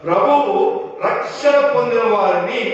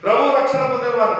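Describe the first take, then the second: First: There is a pause after the first word. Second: The first two words run together without a pause. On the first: The Lord adds those who are receiving salvation. The speaker calls it right. "ప్రభువు అక్కడ ఆగిపోవచ్చు" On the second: It means those who received the Lord's salvation. The speaker calls it wrong. "కాదు"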